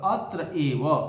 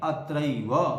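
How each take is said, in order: First: The two words are said separately. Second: The two words merge into one word.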